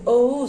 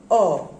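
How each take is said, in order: First: O gliding from "oh" into "oo"; diphthong sound. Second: O as one pure open vowel, "aw"; single vowel sound. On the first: Teacher showing students a diphthong, gliding two-vowel O. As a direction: say O as two vowels working together. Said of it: "that is diphthongs". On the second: Teacher showing students a monophthong, O as single vowel. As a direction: say O as a monophthong, without a glide. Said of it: "only one single vowel sound". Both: Shown as a demonstration.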